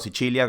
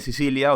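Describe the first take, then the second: First: It is pronounced the Italian way. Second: It is pronounced the Spanish way.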